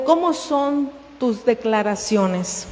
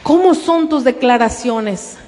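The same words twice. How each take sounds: First: Quiet question. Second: "cómo" stressed, fuller voice; emphatic repeat. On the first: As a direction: ask "¿cómo son tus declaraciones?" softly. (pregunta en voz baja) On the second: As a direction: repeat it firmly after a long pause. (repetición enfática en "cómo") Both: Shown as a demonstration.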